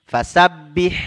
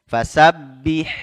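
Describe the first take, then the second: No difference in how they are said.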